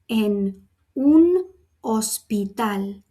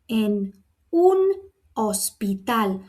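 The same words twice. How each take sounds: First: Each word is pronounced separately. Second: The same.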